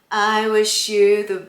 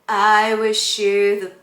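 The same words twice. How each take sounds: No difference in how they are said.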